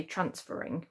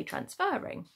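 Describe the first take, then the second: First: "transferring" with a weak, short middle syllable; unstressed FER. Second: "transferring" with a full, stressed "er"; stress on the FER. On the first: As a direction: hit the first syllable of "transferring" and swallow the "fer". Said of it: "we don't say transferring". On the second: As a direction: put the weight on "fer" in "transferring". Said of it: "we say transferring". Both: Shown as a demonstration.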